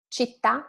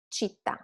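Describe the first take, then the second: First: Città stressed and rising on the final À; accent on last syllable. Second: Città stressed on CIT, falling away; without the accent. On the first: Teacher shows the accent, Città rising at the end. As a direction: lift the TÀ in Città. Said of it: "with the accent". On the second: Teacher shows it without accent, città weak at the end. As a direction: drop the last syllable of città softly. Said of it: "without the accent". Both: Shown as a demonstration.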